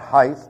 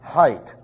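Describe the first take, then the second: First: The word ends with a th sound. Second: The word ends with a plain t sound. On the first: The speaker calls it wrong. "you show your ignorance if you pronounce it height. It's not height" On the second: The speaker calls it right. "that last word is height. All the other words end with TH. This one ends with HT"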